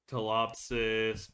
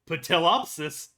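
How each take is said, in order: First: It begins without any P sound. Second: It begins with a pronounced P sound. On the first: The speaker calls it right. "but I could be wrong" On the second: The speaker calls it wrong. "if y'all want me to, I can go Patilopsis"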